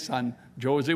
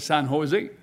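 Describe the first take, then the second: First: Jose begins with a J sound. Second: Jose begins with an H sound. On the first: The speaker calls it wrong. "We don't say San Jose" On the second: The speaker calls it right. "the J, we pronounce it like an H"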